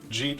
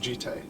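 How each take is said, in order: First: The vowel sounds like 'ee'. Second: The vowel sounds like 'eye'. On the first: The speaker calls it wrong. "I've been calling it like Jeet for like twenty years" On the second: The speaker calls it right. "the correct pronunciation is Jite"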